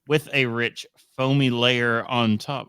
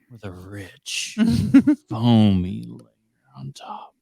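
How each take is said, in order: First: It is said in his normal voice. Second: It is said in a put-on voice.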